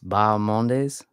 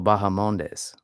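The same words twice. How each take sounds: First: The H sound in the middle is silent. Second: The H sound in the middle is pronounced. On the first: The speaker calls it right. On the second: The speaker calls it wrong. "No, wrong. ... There's no H"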